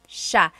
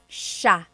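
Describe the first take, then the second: First: The word is said as one syllable, sha. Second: The word is said as one syllable, sha.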